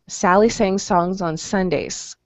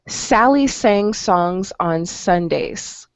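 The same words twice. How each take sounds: First: It is said at a fast pace. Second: It is said at a slow pace.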